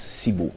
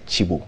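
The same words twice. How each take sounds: First: Cibo starting with an s sound; spelling pronunciation. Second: Chibo starting with a CH sound; correct pronunciation. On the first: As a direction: say Cibo as SEE-bo. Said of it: "the spelling sounds Cibo". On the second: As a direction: say Chibo as CHEE-bo. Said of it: "it's pronounced as Chibo". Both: Shown as a demonstration.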